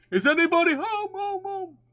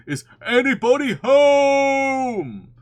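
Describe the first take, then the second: First: Calling out. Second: Long, drawn-out high holler; very loud calling. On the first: Pooh calls into Rabbit's hole, calling out high with fading echo. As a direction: call into the hole, letting it echo away. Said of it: "called out". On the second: Pooh calls down the hole once more, very loudly and drawn out. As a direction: bellow it slowly, stretching the last word. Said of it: "called out Pooh very loudly". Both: A narrator's reading.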